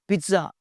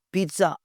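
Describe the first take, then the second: No difference in how they are said.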